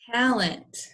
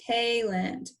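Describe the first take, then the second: First: The first vowel is a short A sound. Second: The first vowel is a long A sound. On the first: The speaker calls it right. "So it's a short A" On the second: The speaker calls it wrong. "it's not Mister A, that would be talent"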